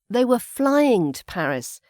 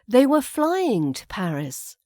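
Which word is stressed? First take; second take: flying; flying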